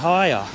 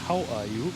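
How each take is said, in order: First: The final word is reduced to a short 'ya'. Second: The final word is said as a full 'you'. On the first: This is how people actually say it locally. "Und hier sagst du zum Beispiel" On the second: This is how it is taught in school. "Das ist was, was wir hier in der Schule lernen"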